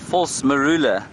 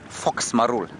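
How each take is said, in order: First: Both words are said in full. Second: It sounds like 'fox marul', with the ending dropped. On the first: The speaker calls it right. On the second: The speaker calls it wrong.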